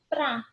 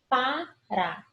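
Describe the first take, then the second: First: The word is reduced to one syllable. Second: The word is said in full with two syllables. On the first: This is the everyday spoken form. "eu tenho uma redução da palavra para" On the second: This is the full form of the word. "de sílaba, porque eu tenho dois obstáculos"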